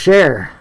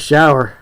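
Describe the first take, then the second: First: It is said with the local Appalachian vowel. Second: It is said with a standard vowel. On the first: "around here we call it a share" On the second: "I know you meant shower"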